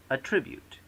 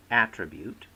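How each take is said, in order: First: "attribute" stressed on the second syllable; verb stress. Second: "attribute" stressed on the first syllable; noun stress. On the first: Lecturer showing stress shift to students, verb at-TRI-bute. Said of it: "often change accent". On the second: Lecturer showing stress shift to students, noun AT-tri-bute. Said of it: "from noun to verb". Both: Shown as a demonstration.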